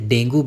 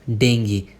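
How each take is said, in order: First: The word ends with a 'goo' sound. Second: The word ends with a 'gee' sound. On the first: The speaker calls it wrong. "बहुत सारे लोग उसे डेंगू बोलते हैं" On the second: The speaker calls it right. "इसे आप बोलेंगे डेंगी"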